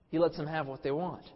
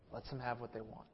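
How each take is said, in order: First: "lets" given the weight, normal level; full-voice take stressing "lets". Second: Dropped almost to a murmur, stress on "have"; quiet first take, "have" weighted; hushed take. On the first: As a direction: restate "He lets them have what they want" hitting "lets". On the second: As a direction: say "Lets them have what they want" softly, leaning on "have". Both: Shown as a demonstration.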